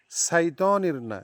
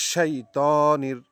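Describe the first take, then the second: First: শাইতানির said fast and sloppy, as the wrong form; mistaken reading. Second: শাইতানির evenly, with a firm শ; correct reading. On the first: Teacher mocking the student's error, a quick sloppy শাইতানির. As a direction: rush শাইতানির the way many wrongly say it. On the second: Teacher giving students the proper শাইতানির, steady. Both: Shown as a demonstration.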